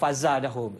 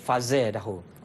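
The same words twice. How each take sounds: First: The vowel after z is an open a. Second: The vowel after z leans toward e. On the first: This is one recognised reading of the word. "al-Fat maknanya fazadahum" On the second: This is another recognised reading of the word. "baca dengan imalah jadi fazadahum"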